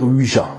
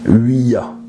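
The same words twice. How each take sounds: First: The word is said without the 'ya' ending. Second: The word is said as 'oui' plus 'ya'. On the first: It is the habitual everyday pronunciation. "on a pris l'habitude de dire Ouija" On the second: It joins the French and German words for yes. "on devrait le prononcer Ouija. Oui pour le français et ya pour l'allemand"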